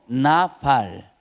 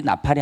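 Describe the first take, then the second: First: 나팔 drawn out as two slow, separate syllables; Hebrew pronunciation. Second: Said in the usual way. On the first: Shown as a demonstration. Preacher teaching the Hebrew word, 나팔 slow and stretched. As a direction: say 나팔 slowly, lengthening each syllable. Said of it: "히브리어로 나팔". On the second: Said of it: "나팔이 아니고 나팔".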